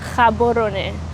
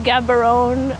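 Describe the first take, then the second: First: The name begins with an H-like sound. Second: The name begins with a hard G sound. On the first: The speaker calls it right. "it's pronounced Gaborone" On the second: The speaker calls it wrong. "most people call it Gaborone"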